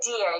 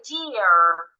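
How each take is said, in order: First: It is said without a final r sound. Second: It is said with a clear final r sound. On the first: It sounds British. "I wouldn't say deer again if I want to sound American" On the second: It sounds American. "I will say deer. The R will be heard"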